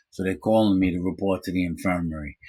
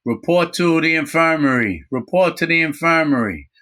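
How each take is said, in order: First: Said in the usual way. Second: High, loud PA voice calling out; mock prison PA call; loudspeaker announcement. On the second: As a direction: announce it over the prison speakers. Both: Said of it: "I hear over the prison loudspeaker".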